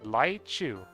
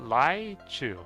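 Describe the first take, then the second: First: The word begins with an L-like sound. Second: The word begins with an L-like sound.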